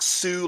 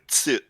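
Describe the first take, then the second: First: The syllable begins with a plain s sound. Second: The syllable begins with a ts sound. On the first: The speaker calls it wrong. "it's not Su like S U" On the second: The speaker calls it right. "It's actually T S U"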